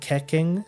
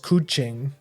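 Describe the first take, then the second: First: The name is said with an English pronunciation. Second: The name is said with a Chinese pronunciation. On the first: The speaker calls it wrong. "most people are England like for English first language people, so they pronounce it like Keking" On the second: The speaker calls it right. "the actual pronunciation ... That's like the Chinese way of saying it"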